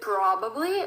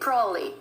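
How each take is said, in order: First: Every syllable of the word is pronounced fully. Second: The word is said fast with sounds dropped. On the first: "we tend to read it probably, which is, again, the right way to say it" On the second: "they tend to speak faster. So they're kind of emitting some sounds"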